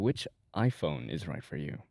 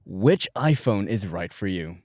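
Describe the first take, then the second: First: It is read in a subtle, restrained way. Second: It is read with more power and energy. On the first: "We're gonna keep it very subtle" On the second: "now with a bit more power"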